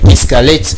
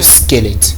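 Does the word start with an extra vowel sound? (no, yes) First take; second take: yes; no. First: The word begins with an added e vowel sound. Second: The word begins directly with the sk sound. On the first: The speaker calls it wrong. "c'est pas la bonne prononciation" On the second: The speaker calls it right. "de squelette en principe"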